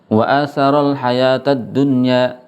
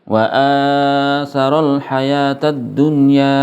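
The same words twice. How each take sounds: First: The long vowel is not lengthened at all. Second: The long vowel is held too long. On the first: "dia nggak panjang sama sekali" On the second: "Ini kepanjangan"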